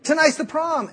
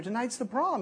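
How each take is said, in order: First: Much higher and louder, "Tonight's" hit hard; exasperated. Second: Said in the usual way. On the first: Retold or imitated. Girl on the phone to her late date, exasperated. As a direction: throw it back at him in disbelief. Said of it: "Excuse me?". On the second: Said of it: "And you say".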